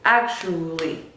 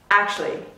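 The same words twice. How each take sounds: First: The word is said with three syllables. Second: The word is said with two syllables. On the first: "Sometimes it can get reduced to three" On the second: "Sometimes it can get reduced to two"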